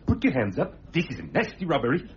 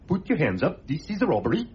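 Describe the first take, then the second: First: It is said in a more menacing way. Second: It is said in a mild, unthreatening way.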